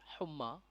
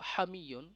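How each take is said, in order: First: The word begins with a 'hum' sound. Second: The word begins with a 'ham' sound. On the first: The speaker calls it wrong. "অনেকেই আমরা বলে থাকি হুম্মা বা হুমা, এটি উচ্চারণগত একটি ভুল।" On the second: The speaker calls it right. "আমরা উচ্চারণ করব হামিয়ন, এর সঠিক উচ্চারণ"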